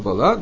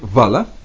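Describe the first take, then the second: First: The stress is on the last syllable. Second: The stress is on the first syllable. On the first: The speaker calls it wrong. "я тоже всегда читал вала" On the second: The speaker calls it right. "четко совершенно там, на первом слоге"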